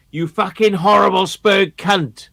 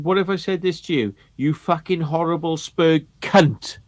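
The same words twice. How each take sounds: First: Louder, higher snarling jeer; nasty mock insult. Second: Nasty mock insult. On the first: Judge's taunt retold, louder nasty mock snarl. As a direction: spit the insult up high. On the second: Retelling the judge's taunt in a nasty mock voice. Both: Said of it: "such a fucking nasty manner".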